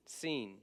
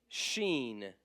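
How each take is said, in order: First: "seen" starting with a sharp S; seen with S sound. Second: "sheen" starting with a hushing sh; sheen with SH sound. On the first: Teacher modelling "seen" for the class. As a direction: say "seen" with a clean hiss, not sh. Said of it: "Say seen". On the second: Teacher contrasting "sheen" with "seen". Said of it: "Seen and sheen". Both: Shown as a demonstration.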